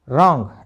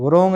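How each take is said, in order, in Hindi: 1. इस शब्द की शुरुआत में W की आवाज़ नहीं है। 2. इस शब्द की शुरुआत में W की आवाज़ है। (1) "क्या बोलेंगे" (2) "नहीं बोलना"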